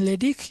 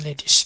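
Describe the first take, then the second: First: The word ends with a hard k sound. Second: The word ends with a soft hissing sound. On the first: "আমি পড়াচ্ছি লেডিক" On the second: "আপনি যদি লেডিস পড়তে চান সমস্যা নাই"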